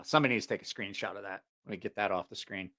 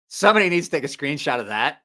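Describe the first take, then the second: First: Low, soft and quick; muttered aside. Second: Raised, clearly projected request; calling to viewers. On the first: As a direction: say it in passing, half to yourself. First take, said in passing. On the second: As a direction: put it out to the whole audience. Repeats it out to viewers. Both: Real, not acted.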